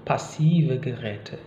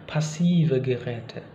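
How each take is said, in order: No difference in how they are said.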